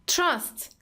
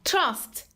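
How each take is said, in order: The two takes are said the same way.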